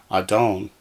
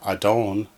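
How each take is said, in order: The two takes are said the same way.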